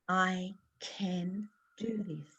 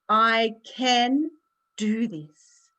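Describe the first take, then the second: First: It is said a little louder, still quiet. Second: It is said loudly and confidently.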